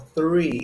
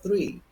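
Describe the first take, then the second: First: It is said in a British accent, drawn out. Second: It is said in an American accent, shorter. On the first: "They use three, extend it a little more" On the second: "instead of three"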